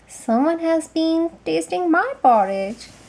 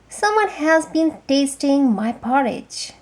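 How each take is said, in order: First: It is said in a middle-sized voice. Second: It is said in a great big voice.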